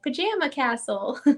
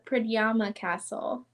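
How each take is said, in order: First: The name is said like the word pajama. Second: The name begins with a prad sound, then yama. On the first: The speaker calls it wrong. "when I first saw this castle name, I was like" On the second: The speaker calls it right. "it's actually called the"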